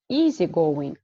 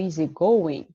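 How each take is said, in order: First: The stress falls on the first part, easy. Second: The stress falls on the second part, going. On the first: The speaker calls it wrong. "which word is stressed, the first one" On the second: The speaker calls it right. "or the second"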